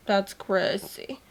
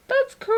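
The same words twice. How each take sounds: First: Said in the usual way. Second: Very high squeal on "That's crazy"; a delighted high-pitched squeal; squeaky repeat. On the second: Real, not acted. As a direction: squeak it out in shock. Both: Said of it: "repeats it in a squeal".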